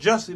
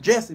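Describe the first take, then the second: First: The name is said as Jussie. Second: The name is said as Jesse. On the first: This is the name's actual pronunciation. "I know it's Jussie" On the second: The speaker is uncomfortable saying the real form. "I'm pronouncing it Jesse"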